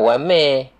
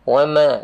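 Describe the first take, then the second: First: The final vowel is closed, toward e. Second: The final vowel is fully open, like a. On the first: The speaker calls it wrong. "tapi bukan wame" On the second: The speaker calls it right. "dia cara bukaan huruf fathah"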